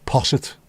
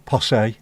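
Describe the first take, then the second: First: "Posset" ending in a short -it; posset with sounded t. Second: "Posse" ending in an -ay sound; posset with silent t. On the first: Says both pronunciations of posset. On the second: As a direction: say "Posse" as poss-AY, no t. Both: Shown as a demonstration.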